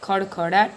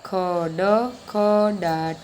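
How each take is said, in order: First: The word is said quickly, all run together. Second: The word is said slowly, in separate parts. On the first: "આ રીતે ઝડપથી બોલવાના છે" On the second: "આ રીતે આપણે ધીમે બોલવાના છે"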